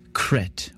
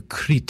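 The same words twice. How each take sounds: First: The name is pronounced the English way. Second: The name is pronounced the Greek way.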